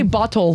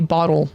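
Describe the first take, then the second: First: The middle sound is a crisp, clear T. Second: The middle sound is a soft D-like tap. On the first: "We don't say" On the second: "We say bottle. With a D"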